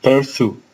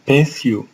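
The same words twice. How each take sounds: First: "pursue" said the American way, "pərsu"; American "pursue" with the r sounded; American accent. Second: "pursue" said the British way, "pesju"; British English "pursue" with no r sound; British accent. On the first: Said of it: "In American". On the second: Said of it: "In English accent". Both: Shown as a demonstration.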